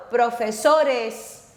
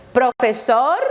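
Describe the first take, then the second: First: "profesores" said slowly, leaning on the "es" ending; stress on the added ES. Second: Said in the usual way. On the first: Shown as a demonstration. Teacher showing students the ES plural, slow and stressed. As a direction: drag out the "es" in "profesores". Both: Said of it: "añadimos E S".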